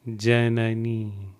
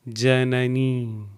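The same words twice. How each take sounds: No difference in how they are said.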